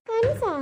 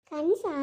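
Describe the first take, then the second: First: Louder incredulous ಕನಸಾ with a jump up in pitch; shocked disbelief. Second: Dismissive echo. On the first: Stepmother stunned to hear it was a dream, loud ಕನಸಾ. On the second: Mother-in-law brushing off the stepmother's question, offhand ಕನಸಾ. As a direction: toss back ಕನಸಾ offhand. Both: Acted.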